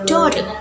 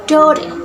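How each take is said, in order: First: It is said in an Australian accent. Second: The same.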